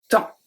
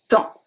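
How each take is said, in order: First: The final P and S are silent. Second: The final P and S are silent.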